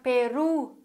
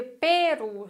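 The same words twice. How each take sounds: First: Peru stressed on the last syllable ru; correct stress. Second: Peru stressed on the first syllable Pe; wrong stress. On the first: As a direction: say Peru as peRU, the right way. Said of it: "weil es einfach Peru heißen soll". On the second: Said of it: "das würde aber bedeuten, dass wir Peru sagen". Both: Shown as a demonstration.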